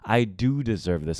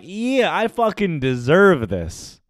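First: Low, self-assured "I do deserve this"; a hint of swagger; arrogant confidence. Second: Higher, slow "I fucking deserve this"; a hint of squeaky bravado; voice going high. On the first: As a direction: own it, calm and smug. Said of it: "arrogant, confident ego". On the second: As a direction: try to sound confident but it rises. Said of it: "why is my voice going high".

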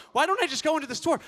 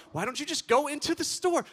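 First: High, fast, loud disbelieving echo of "don't"; incredulous repeat. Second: Higher, mocking replay of her suggestion; mocking echo. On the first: Retold or imitated. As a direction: echo her idea in disbelief. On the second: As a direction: parrot the wife's words. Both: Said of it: "She's like".

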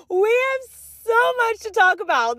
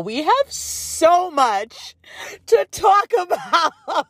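First: High, bright, emphatic announcement; excited. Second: Laughing through the words; giggling as she says it. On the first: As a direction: say it clean and excited. Clean restart of the line. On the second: Opening excited restart, laughing. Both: Real, not acted.

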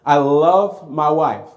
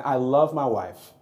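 First: Slow, louder, leaning hard on "love"; stress on love. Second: Said in the usual way. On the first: Shown as a demonstration. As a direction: stretch out "love" and press it. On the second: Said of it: "I love my wife, okay?".

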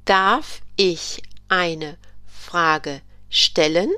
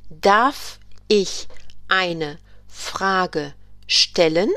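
First: Very slow repeated question. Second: Very slow, clear question; slow model question. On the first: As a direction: say it again slowly. German teacher repeats the question. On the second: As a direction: draw out the question for learners. German teacher models a question. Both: Shown as a demonstration.

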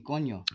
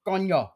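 First: Said in the usual way. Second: High, loud exclamation in Puerto Rican Spanish; punchy mock Puerto Rican outburst; imitated Puerto Rican exclamation. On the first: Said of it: "She was using coño". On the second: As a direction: call it out like an exasperated Puerto Rican. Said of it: "She said".

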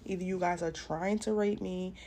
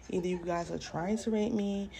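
The two takes are said the same way.

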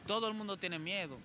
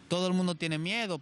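First: Said in the usual way. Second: "Todo el mundo tiene miedo" said again much louder, with weight on "miedo"; emphatic repeat. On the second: Real, not acted. Friend stresses to his host that "Todo el mundo tiene miedo", loud and emphatic. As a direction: lean hard into "miedo" the second time round.

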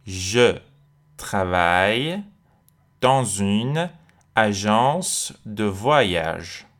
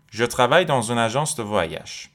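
First: Very slow, drawn-out French with pauses between chunks; stretched teacher's dictation pace; slow word-by-word model. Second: Whole French sentence in one connected flow; careful but continuous model sentence; joined-up sentence. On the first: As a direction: break the sentence apart for learners. Teacher breaks sentence up for learners. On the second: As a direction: run the words together at a measured teaching pace. Teacher then joins the whole sentence. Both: Shown as a demonstration.

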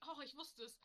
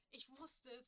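First: Pleased, higher exclamation; excited. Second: Said in the usual way. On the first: Real, not acted. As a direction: cheer that you remembered. Excited at remembering.

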